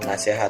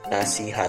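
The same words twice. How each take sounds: First: The second vowel is an e sound. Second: The second vowel is an i sound. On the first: The speaker calls it wrong. "mengucapkan kata nasihat dengan nasihat memakai E. Padahal itu tidak baku" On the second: The speaker calls it right. "yang bakunya adalah nasihat memakai I"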